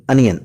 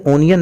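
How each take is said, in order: First: अनियन with an opening short "uh" sound; correct pronunciation. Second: ओनियन with an opening "o" sound; wrong pronunciation. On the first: Teacher gives learners the right form, अनियन with "uh". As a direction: say अनियन, starting on "uh" rather than "oh". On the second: Teacher warns learners off this form, mispronounced ओनियन with "oh". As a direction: say ओनियन, starting on a long "oh". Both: Shown as a demonstration. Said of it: "याद रहे, ओनियन नहीं".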